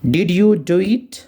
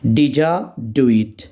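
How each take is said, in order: First: 'Did you' is said as two separate words. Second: 'Did you' is blended into one word, 'didja'.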